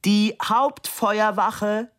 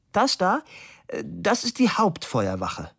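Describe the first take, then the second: First: Slow, high shout; drawn-out high-pitched call. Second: Pointed, high-pitched opening; matter-of-fact answer, lifted at the start; raised voice answer. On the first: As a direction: shout it slowly for someone hard of hearing. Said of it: "schrie Fabian". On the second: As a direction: announce it as if pointing out a sight. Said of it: "Er stellte sich auch noch schwerhörig". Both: A narrator's reading.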